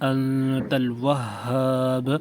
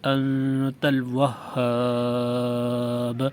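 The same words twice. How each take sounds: First: The final long vowel is held one count. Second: The final long vowel is held three counts. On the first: "एक गुना" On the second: "तीन गुना"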